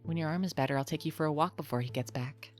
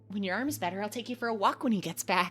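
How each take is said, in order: First: The line is delivered in a calm, unexcited tone. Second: The line is delivered in an excited tone.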